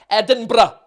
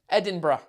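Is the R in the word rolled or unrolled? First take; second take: rolled; unrolled. First: The R is rolled, in a Scottish accent. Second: The R is said without a roll.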